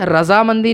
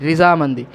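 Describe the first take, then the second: First: The first syllable has the vowel 'a'. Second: The first syllable has the vowel 'i'. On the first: The speaker calls it wrong. "रजामंदी नहीं, ये हम गलत बोलते हैं" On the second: The speaker calls it right.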